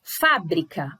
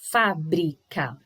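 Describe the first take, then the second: First: Said in the usual way. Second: "Fábrica" slowly split into fá, bri, ca; low and slow, separate each syllable of "Fábrica". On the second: Shown as a demonstration. Teacher showing syllable separation, slow and split. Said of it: "Olha lá a separação".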